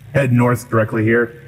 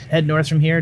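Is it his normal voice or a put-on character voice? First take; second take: character; normal. First: It is said in a put-on character voice. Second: It is said in his own normal voice.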